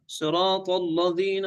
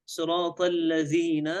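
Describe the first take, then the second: First: "الذين" thickened after "صراط"; mistaken heaviness. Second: "صراط الذين" with a thin l in alladhina; careful reading, no thickening in "الذين"; light lam. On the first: Retold or imitated. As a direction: carry dark emphasis through "صراط الذين". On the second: Shown as a demonstration. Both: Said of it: "في بعض يفخم".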